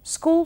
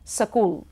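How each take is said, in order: First: Said with no added vowel sound. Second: A vowel is added between s and k.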